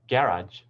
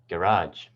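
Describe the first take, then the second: First: It has the British stress pattern. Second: It has the American stress pattern. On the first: "In British English"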